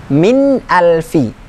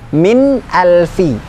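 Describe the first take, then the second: Both takes have the same delivery.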